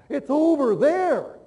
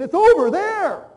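First: It is said louder than normal. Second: It is said louder still, very loudly.

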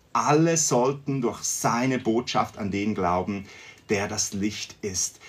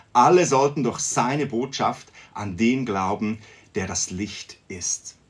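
No difference in how they are said.

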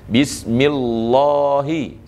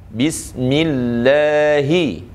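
First: The l sound is thick and heavy. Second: The l sound is thin and light. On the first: The speaker calls it wrong. "jangan kita tebal, salah kita baca Bismillahi, salah" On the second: The speaker calls it right. "Yang betul adalah Bismillahi"

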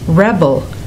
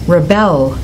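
First: The stress is on the first syllable. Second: The stress is on the second syllable. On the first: It is a noun. "when the homograph is a noun, the stress is on the first syllable" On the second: It is a verb. "When it's a verb, the stress goes on the second syllable"

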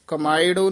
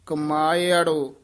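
First: No extra vowel is sounded before 'ṛo'. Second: An extra 'a' vowel is sounded before 'ṛo'. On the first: The speaker calls it wrong. "ਕਮਾਇੜੋ ਨਹੀਂ ਕਹਿਣਾ" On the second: The speaker calls it right. "ਇਹ ਇਸੇ ਤਰ੍ਹਾਂ ਹੀ ਉਚਾਰਨ ਕਰਨਾ। ... ਐੜਾ ਵੀ ਵਿੱਚ ਹੈ।"

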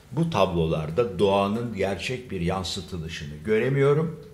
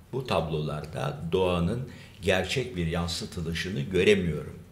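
Both takes have the same delivery.

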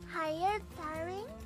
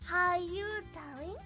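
First: It is said in a mature voice. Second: It is said in an ordinary voice.

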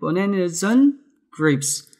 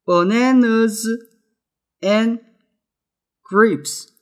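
First: The phrase is said fast and linked together. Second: The phrase is said slowly and carefully.

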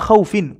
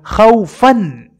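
First: The word ends with an '-in' sound. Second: The word ends with an '-an' sound. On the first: The speaker calls it right. "kwa jar na majrur" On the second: The speaker calls it wrong. "yeye akaweka nasbi"

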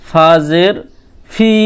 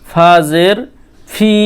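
Both takes have the same delivery.

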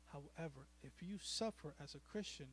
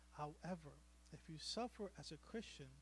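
The two takes are said the same way.

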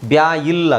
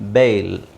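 First: The vowel is split into 'ya' plus 'ee'. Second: The vowel is a single 'ay' sound. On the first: The speaker calls it wrong. "ಅದನ್ನು ಆ ಥರ pronounce ಮಾಡೋದು ತಪ್ಪು" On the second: The speaker calls it right. "AI ಅಂತ ಬಂದರೆ ಏಯ್ ಅಂತ ಹೇಳಬೇಕು"

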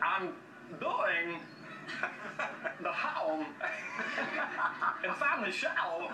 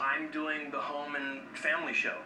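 First: It has odd pauses in unexpected places. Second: It flows smoothly without unusual pauses. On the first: It sounds strange and bizarre. "then suddenly it becomes like, what did you just say?" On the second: It sounds like an ordinary statement. "That doesn't sound weird"

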